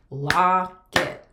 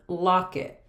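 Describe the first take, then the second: First: "locket" in two loud beats, lock-et; clapped-out syllables. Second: Said in the usual way. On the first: Shown as a demonstration. Teacher clapping out that word, loud and separated. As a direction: stretch "lock", gap, then "et". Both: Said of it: "We can clap out that word".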